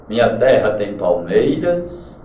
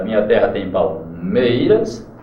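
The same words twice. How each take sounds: First: Said in the usual way. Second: Slow, leaning on the stressed "ter" of "terra" and "mei" of "palmeiras"; marked syllable stress. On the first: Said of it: "Veja como é bem a Canção do Exílio". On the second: Shown as a demonstration. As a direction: beat out each stressed syllable of "minha terra tem palmeiras". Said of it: "para você perceber a tonicidade". (leitura lenta marcando a sílaba tônica de "palmeiras")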